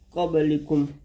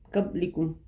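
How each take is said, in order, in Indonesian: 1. Bunyi b dilepas dengan pantulan gema. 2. Bunyi b dipotong pendek tanpa gema. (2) "tidak boleh"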